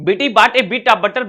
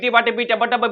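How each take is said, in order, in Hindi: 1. यह वाक्यांश धीरे और सावधानी से बोला गया है। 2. यह वाक्यांश तेज़ और सहजता से बोला गया है। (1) "पहले मैं थोड़ा सा धीरे बोलता हूं" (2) "उसके बाद मैं अपनी स्पीड को बढ़ाऊंगा"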